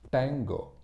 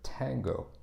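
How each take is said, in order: First: The T is made with the tongue further back. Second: The T is made with the tongue further forward. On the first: The speaker calls it wrong. "what a lot of Tamil speakers might do is they would pronounce it like tango" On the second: The speaker calls it right. "instead of tango"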